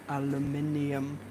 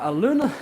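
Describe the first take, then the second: First: It is said the British way. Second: It is said the American way. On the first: The speaker calls it right. "the right pronunciation is al aluminium" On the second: The speaker calls it wrong. "not aluminum. That's American"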